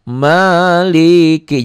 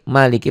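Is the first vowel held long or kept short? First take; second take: long; short. First: The first vowel is drawn out long. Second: The first vowel is kept short. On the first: The speaker calls it wrong. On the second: The speaker calls it right. "maliki pendek"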